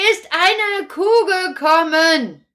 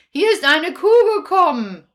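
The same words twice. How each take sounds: First: "Kuh gekommen" said slowly, each word spaced; slow repeat. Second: Said in the usual way. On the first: Acted. Kasperl repeating slowly to a grandma who misheard. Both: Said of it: "Was hast du genommen?".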